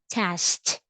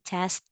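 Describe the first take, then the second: First: The t sound is strong and emphasized. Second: The t sound is weak and soft. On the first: The speaker calls it right. "say test" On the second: The speaker calls it wrong. "instead of saying test"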